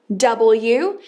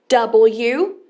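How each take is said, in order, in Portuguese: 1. A letra é dita pelo nome completo. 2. A letra é dita pelo nome completo.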